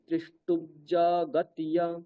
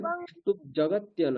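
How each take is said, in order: First: The words merge with a doubled j sound. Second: A p sound ends the first word, then j. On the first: The speaker calls it right. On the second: The speaker calls it wrong.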